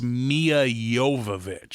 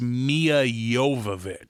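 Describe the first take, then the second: First: The J in the surname sounds soft. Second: The J in the surname sounds soft.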